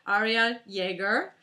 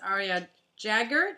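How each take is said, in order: First: The surname begins without an English J sound. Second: The surname begins with an English J sound. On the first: The speaker calls it right. "it's not even a J" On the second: The speaker calls it wrong. "I pronounced the actual J"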